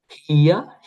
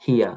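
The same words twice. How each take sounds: First: "হিয়া" stretched as hi-ya, rising; unmerged syllables. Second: "হিয়া" as one short hya; merged into one syllable. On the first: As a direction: sound out both parts of "হিয়া". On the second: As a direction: clip "হিয়া" into a single falling beat. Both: Shown as a demonstration. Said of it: "তখন ইটা বাদ যাবে".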